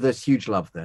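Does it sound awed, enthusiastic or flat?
flat. It is said flatly, without enthusiasm.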